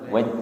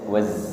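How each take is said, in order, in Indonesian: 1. Konsonan terakhir adalah bunyi j yang tidak mendesis. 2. Konsonan terakhir adalah bunyi z yang mendesis. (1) "bukan waj" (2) "Desis nggih"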